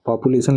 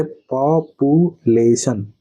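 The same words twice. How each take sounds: First: Said in the usual way. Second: पॉपुलेशन slowly split into its separate syllables. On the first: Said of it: "आप पॉपुलेशन लिखेंगे ऐसे". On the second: Shown as a demonstration. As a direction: break पॉपुलेशन into slow, distinct syllables with gaps. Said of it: "अब ये syllable क्या होता है".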